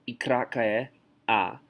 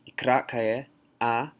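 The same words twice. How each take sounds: Both takes have the same delivery.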